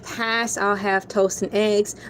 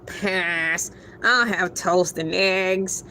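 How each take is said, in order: First: It is read in the speaker's normal voice. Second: It is read in a put-on cartoon voice.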